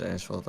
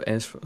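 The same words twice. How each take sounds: First: 'asphalt' said fully and settled, as-falt; corrected pronunciation. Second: 'asphalt' trailing off after 'as', unsure; unsure pronunciation. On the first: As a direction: say 'asphalt' cleanly, confirming it. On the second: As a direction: start 'asphalt' hesitantly and break off. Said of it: "how do you say that?". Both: Real, not acted.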